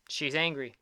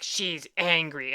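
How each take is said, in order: First: Said in the usual way. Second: Slow, drawn-out mimicry of a child; imitated little niece. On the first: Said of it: "I go". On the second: Niece insisting about her drawing, imitated in a drawn-out voice. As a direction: drag out the words like the insistent niece. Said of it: "She's like".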